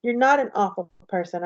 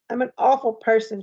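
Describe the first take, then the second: First: Gently reassuring, only slightly softened; understated soft reassurance. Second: Understated tearful confession; mildly upset, no real sobbing; through tears. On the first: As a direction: quietly contradict to comfort. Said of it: "I say softly". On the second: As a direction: say it with a hint of tears. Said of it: "she says through her tears". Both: A narrator's reading.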